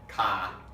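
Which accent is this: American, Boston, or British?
Boston. It is said in a Boston accent.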